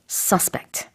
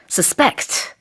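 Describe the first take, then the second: First: The stress is on the first syllable. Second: The stress is on the second syllable. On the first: It is a noun or adjective meaning a suspected person. "명사일 때 내지는 형용사일 때 강세가 앞에 붙습니다" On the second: It is a verb meaning to suspect. "동사일 때는요, ... 강세가 뒤에 있어요"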